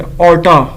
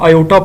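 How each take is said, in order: First: The word is said with an R sound. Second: The word is said with no R sound. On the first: The speaker calls it wrong. "यानी ऑर्टा नहीं होता" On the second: The speaker calls it right. "ये आर जो है ना silent है"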